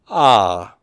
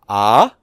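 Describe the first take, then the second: First: The pitch falls. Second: The pitch rises. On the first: "a grave accent then would be falling tone" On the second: "indicating a rising tone"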